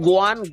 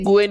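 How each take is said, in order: First: The name is said with an 'a' vowel. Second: The name is said with an 'e' vowel. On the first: This is how the Korean name is said. The speaker calls it right. "क्योंकि ये Korean name है तो वो गुएन नहीं बल्कि गुआन" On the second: This is how the name would read in English. The speaker calls it wrong. "अगर ये नाम इंग्लिश में होता तो ये गुएन ही आता"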